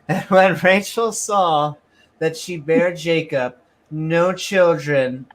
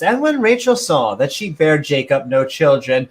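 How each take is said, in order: First: It is read flatly, without much emphasis. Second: It is read with strong, lively emphasis. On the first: The speaker calls it wrong. "I didn't read that with the good emphasis" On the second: The speaker calls it right. "with good emphasis"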